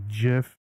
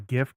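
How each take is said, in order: First: It starts with a J sound. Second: It starts with a hard G sound. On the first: "with a J sound" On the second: "it's a G and G is a G sound"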